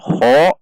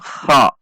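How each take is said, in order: First: The vowel is said with rounded lips. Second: The vowel is said open, without rounded lips. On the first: The speaker calls it wrong. "tidak dengan mengucapkan kha" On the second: The speaker calls it right. "Saat fathah tidak dengan membulatkan bibir"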